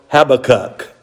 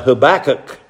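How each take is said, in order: First: The name is said the British way. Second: The name is said the American way. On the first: "as the British people call it" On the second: "That's how we say it here in American English"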